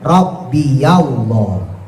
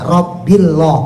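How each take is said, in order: First: A 'ya' sound links the two words. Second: The words run together with no 'ya' sound. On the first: The speaker calls it right. "harus diberikan harokat fathah" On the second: The speaker calls it wrong. "nggak bisa dibaca Rabbillah"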